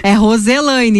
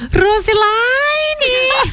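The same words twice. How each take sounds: First: Said in the usual way. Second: Put-on Roselaine shouted high and slow in a German accent; german accent portuguese. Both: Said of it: "minha mãe tem sotaque alemão".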